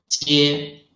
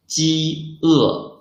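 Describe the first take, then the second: First: "jie" run together as a single syllable; one syllable, no pause. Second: "ji e" as two syllables with a break before e; clear pause between syllables. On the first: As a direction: blend "jie" without any break. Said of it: "there can be no pause in the middle". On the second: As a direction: say "ji e" with a distinct gap in the middle. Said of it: "there must be a clear pause in the middle". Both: Shown as a demonstration.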